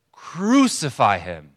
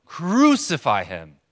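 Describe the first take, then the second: First: Slow, loud mob cry; crowd shout. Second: Drawn-out, loud, insistent mob cry; even louder shout. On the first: Preacher imitating the crowd the prisoner overhears, shouting. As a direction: draw it out forcefully as a crowd's demand. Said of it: "even louder". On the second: Preacher imitating the crowd's repeated demand, shouting louder. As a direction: shout it slowly with mounting force. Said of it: "And then again, even louder". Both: Retold or imitated.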